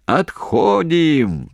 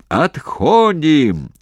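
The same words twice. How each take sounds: First: Very slow, high, stretched yell; drawn-out shout. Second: Very slow, high, loud stretched call; drawn-out shout. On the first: Commander shouting the retreat order to troops. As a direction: stretch the call long across the trench. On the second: Commander shouting the retreat down the trench. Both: Acted. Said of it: "протяжно закричал Головачёв".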